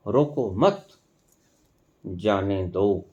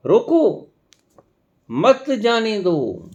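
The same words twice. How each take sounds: First: रोको मत as one unit, long pause, जाने दो dropped low; pause after मत. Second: High emphatic रोको, long pause, then slow मत जाने दो; pause after रोको. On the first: Teacher proving pauses reverse meaning, break after मत. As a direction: run रोको into मत, then softly release जाने दो. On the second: Teacher proving pauses reverse meaning, emphatic break after रोको. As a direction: punch रोको alone, then draw out मत जाने दो. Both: Shown as a demonstration. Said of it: "ठहराव से और दबाव से".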